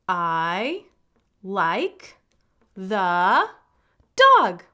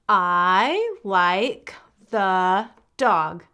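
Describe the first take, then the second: First: It is read at a slower pace. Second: It is read at a faster pace.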